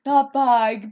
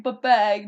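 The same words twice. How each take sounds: First: "bag" with a Minnesota raised vowel, like "bayg". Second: "bag" with a flat short a, no Minnesota raising; corrected bag. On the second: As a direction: say "bag" the standard way. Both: Shown as a demonstration. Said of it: "my Minnesota accent".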